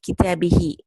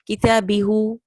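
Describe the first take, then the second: First: The last vowel is an 'i' sound. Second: The last vowel is a 'u' sound. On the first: The speaker calls it right. "more easier on the tongue to say" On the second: The speaker calls it wrong. "it doesn't sound correct"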